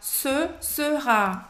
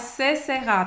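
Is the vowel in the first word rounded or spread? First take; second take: rounded; spread. First: The first vowel is said with rounded lips. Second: The first vowel is said with spread, smiling lips. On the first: The speaker calls it right. "Você faz a boca do O e fala E" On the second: The speaker calls it wrong. "que não é se sera"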